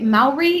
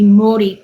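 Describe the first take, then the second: First: The word has a broad American pronunciation. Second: The word has a Maori-style pronunciation.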